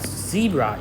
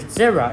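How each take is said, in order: First: It is pronounced the US way. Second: It is pronounced the British way. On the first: "the U S way and also popular in the U K" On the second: "a British way of pronouncing this word"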